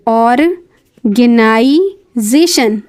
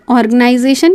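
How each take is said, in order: First: organisation drawn out syllable by syllable, very slow; organisation spoken slowly and clearly, ऑर-गे-ना-इ-जे-शन; slow pronunciation demo. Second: Said in the usual way. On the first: Shown as a demonstration. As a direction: stretch every syllable of organisation for learners. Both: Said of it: "यहाँ pronunciation इस तरह लिखा हुआ है".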